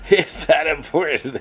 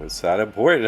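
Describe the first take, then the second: First: Laughing, higher mock repeat. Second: Said in the usual way. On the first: Real, not acted. Host laughs while echoing a viewer's comment. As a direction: laugh it off as you echo the question.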